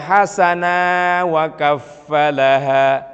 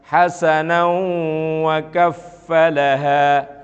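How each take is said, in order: First: A long vowel ends hasana before wa. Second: The tanwin nasal links into the following wa. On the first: The speaker calls it wrong. "Enggak boleh dibaca" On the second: The speaker calls it right. "kalau diteruskan, maka hasanan ini hilang matnya, kembali pada hukum bacaan semula"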